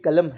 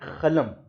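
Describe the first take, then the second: First: It begins with a deep back q sound. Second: It begins with a rough kh sound. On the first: This is the standard written form. "ये कलम है" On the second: This is how Deccan speakers say it. "वो इसको पढ़ता है खलम"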